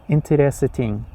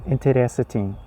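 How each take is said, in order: The two takes are said the same way.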